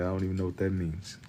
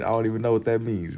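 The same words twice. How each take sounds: First: Under breath. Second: Said in the usual way. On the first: Shown as a demonstration.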